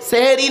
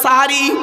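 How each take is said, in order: First: The word is said with e vowels: sehri. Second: The word is said with a vowels: sahari. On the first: The speaker calls it wrong. "সেহেরি নয়" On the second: The speaker calls it right. "আরবিতে সাহারি বলে"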